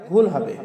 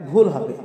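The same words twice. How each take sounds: Both takes have the same delivery.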